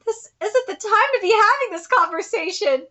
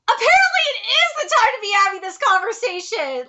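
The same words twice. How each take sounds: First: Said in the usual way. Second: High, exasperated stress on "is"; emphatic contradiction. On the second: Real, not acted. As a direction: hit "is" hard to contradict the line. Contradicts the line just read.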